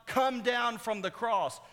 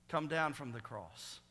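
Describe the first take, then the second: First: High, loud, drawn-out taunt; mocking demand. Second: Said in the usual way. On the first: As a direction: call it out slowly as a jeering command. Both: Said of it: "this mocking statement".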